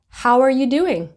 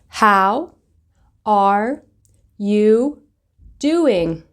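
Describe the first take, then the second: First: The words run together as one phrase. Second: Each word is said separately with breaks. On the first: "Put it together and you'll hear" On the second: "I will start off by pronouncing the words word by word"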